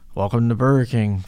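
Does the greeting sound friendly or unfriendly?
unfriendly. The greeting sounds flat, bored and unfriendly. The worker no longer cares about the customers. The speaker calls it wrong.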